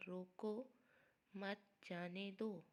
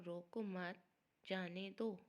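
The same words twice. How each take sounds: First: "روکو" with a rising break, then a clear pause before a slow "مت جانے دو"; pause after روکو. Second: "روکو مت" said together, falling on "مت", then a pause before "جانے دو"; pause after مت. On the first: Teacher showing students the comma after "روکو", slow, with a pause. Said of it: "لگائیں گے روکو کے بعد تو یہ جملہ بنے گا". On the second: Teacher showing students the comma moved after "مت", a pause before "جانے دو". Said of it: "اور اگر یہ علامت ہم مت کے بعد لگائیں گے". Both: Shown as a demonstration.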